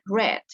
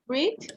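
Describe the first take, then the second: First: The vowel is short, like 'red'. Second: The vowel is long, like 'reed'.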